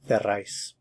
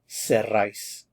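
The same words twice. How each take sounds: First: The word begins with a th sound. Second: The word begins with an s sound.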